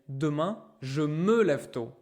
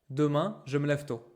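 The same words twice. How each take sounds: First: Every word is said in full. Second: It is said fast, with words shortened. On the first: "By right, she should say" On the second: "people speak fast and they say"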